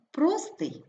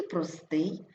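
First: ПРОстий, first syllable stressed. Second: ПроСТИЙ, ending stressed; stress on last syllable. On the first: Teacher showing double stress, stress on ПРО. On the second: Teacher showing double stress, stress on СТИЙ. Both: Shown as a demonstration. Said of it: "слова із подвійним наголосом".

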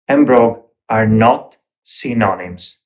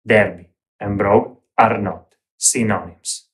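First: "and brogue are not synonyms" said firmly, with the stress on "and"; teacher correcting viewers who confuse Derby and brogue, said firmly; firm correction. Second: "Derby and brogue are not synonyms" said firmly, leaning on "are", falling at the end; emphatic repeat. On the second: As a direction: tailor repeating his warning to online viewers, insisting on "are". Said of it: "Doesn't matter what you will hear". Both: Shown as a demonstration.

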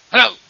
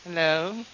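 First: Short, fierce hello; fierce demo voice. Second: Gentle demo voice. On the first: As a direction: fire the greeting out fiercely. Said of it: "Some are very fierce". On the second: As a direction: greet gently, lifting at the end. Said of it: "Some are very gentle". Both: Shown as a demonstration.

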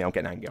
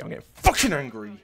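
First: Said in the usual way. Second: Loud burst of real anger; angry outburst. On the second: Real, not acted. Player losing patience with the game, angry shout. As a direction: punch out "fucking angry" loudly.

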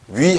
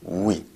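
First: Oui said the Korean way as a plain wi; 한국식으로 짧게 '위'; wrong oui. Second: Oui said slowly and carefully, rounded into the i; 프랑스식 'oui', 천천히; French oui. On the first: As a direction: oui like Korean 위, flat and short. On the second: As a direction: oui with the French glide, drawn out. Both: Shown as a demonstration. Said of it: "oui 하면 안 돼요".

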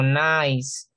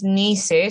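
First: Nice as English nais, slow; right nice. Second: Nice read as Spanish ni-se; wrong nice. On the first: Teacher modelling the right English nice. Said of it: "sino nice". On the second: Teacher showing the wrong Spanish nice. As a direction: say nice as ni-se, slowly. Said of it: "No es nice". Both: Shown as a demonstration.

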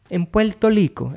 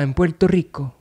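First: "Puerto Rico" with L for each R, higher; local pronunciation. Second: Said in the usual way. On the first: Retold or imitated. Imitating how locals say it, "Puerto Rico" with L sounds. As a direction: say "Puerto Rico" as "Puelto Lico". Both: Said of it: "as they say it".

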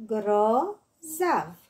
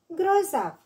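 First: "Grozav" stretched into two beats, gro-zav; syllable by syllable. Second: Said in the usual way. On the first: Shown as a demonstration. („Grozav” despărțit în silabe: gro-zav) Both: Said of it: "Desparte în silabe cuvintele date".

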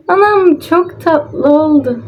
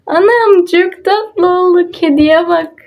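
First: Slow cooing again; cooing delight. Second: High, slow cooing; high slow coo of delight. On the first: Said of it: "repeats the coo". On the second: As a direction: coo over something adorable. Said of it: "delighted by cute result". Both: Real, not acted.

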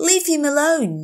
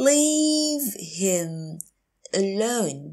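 First: Said in the usual way. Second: Long "Leave him", pause, then "alone"; slow teacher model of "Leave him alone"; slow, broken up. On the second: Shown as a demonstration. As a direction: stretch "Leave" and separate "alone". Teacher repeats phrase slowly.

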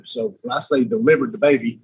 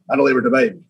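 First: Said in the usual way. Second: "delivered" leaned on, falling tune; stress on delivered. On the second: Shown as a demonstration. Insisting to the hosts he did the delivery, stress on "delivered". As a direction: hit "delivered" hard, then let it fall.

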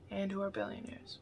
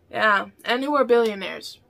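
First: Dropped to a much softer aside; quiet echo. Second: Said in the usual way. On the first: Shown as a demonstration. Echoing her own line to viewers, much softer. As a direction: repeat it much softer, under the breath.

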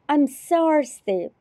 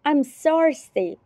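Both takes have the same delivery.

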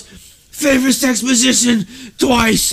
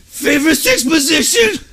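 First: High and slow, drawn out; mock delirious repeat. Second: High, slowed, dazed reply; mock delirious answer. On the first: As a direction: say it again like a dazed patient. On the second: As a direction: imitate the drowsy concussed cousin. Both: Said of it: "He goes".

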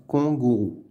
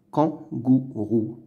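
First: "kangourou" mispronounced as "kongourou"; first vowel of "kangourou" turned into nasal "on"; wrong nasal vowel. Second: "Kangourou" with open nasal "an" first; correct nasal "an". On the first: Teacher showing pupils what not to say, "kongourou" for "kangourou". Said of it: "On dit pas kangourou". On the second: Teacher correcting the wrong take, "Kangourou" with a clear "an". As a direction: carefully split "Kangourou", first syllable "kan". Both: Shown as a demonstration.

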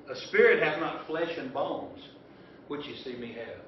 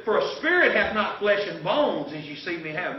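First: A slower, deliberate rereading. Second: Said in the usual way. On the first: Shown as a demonstration. Preacher rereading verse to congregation, slow and deliberate. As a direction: read it again slowly so they catch the gap. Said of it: "Did you hear that?". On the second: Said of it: "Now notice something was missing there".

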